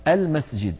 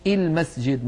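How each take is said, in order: First: "المسجد" as "al-masjid", opening on "a"; hamza with fatha. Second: "المسجد" as "il-masjid", opening on "i"; wrong initial kasra. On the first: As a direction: begin "المسجد" with a clear fatha. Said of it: "مفتوحة دائما". (نطق «المسجد» بهمزة مفتوحة) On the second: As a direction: misread "المسجد" with "i" instead of "a". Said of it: "ولا يقولون المسجد مثلًا". (نطق «المسجد» خطأً بهمزة مكسورة) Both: Shown as a demonstration.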